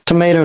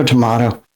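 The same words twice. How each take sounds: First: "Tomato" with a long "ay" in the middle; tomayto pronunciation. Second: "tomato" with a broad "ah" in the middle; tomahto pronunciation. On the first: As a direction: say "Tomato" as toh-MAY-toh. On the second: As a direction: say "tomato" as toh-MAH-toh. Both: Shown as a demonstration. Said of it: "It's pronounced tomato".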